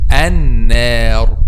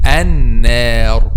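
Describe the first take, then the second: First: The long vowel is light and clear. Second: The same.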